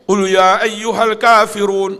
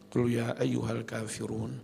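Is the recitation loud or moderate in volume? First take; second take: loud; moderate. First: It is recited very loudly. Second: It is recited at a moderate volume.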